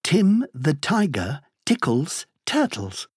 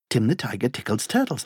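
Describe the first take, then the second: First: The phrase is said at a slow pace. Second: The phrase is said at a very fast pace.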